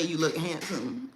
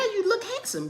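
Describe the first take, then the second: First: Said in the usual way. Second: Higher, sing-song praise for her son; high coaxing compliment. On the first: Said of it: "when I say". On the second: Real, not acted. Mother coaxing her son to respond, high cooing praise.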